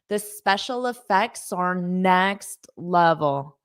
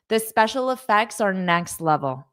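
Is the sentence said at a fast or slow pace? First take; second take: slow; fast. First: It is said slowly with sounds linked. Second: It is said at a normal, quick pace.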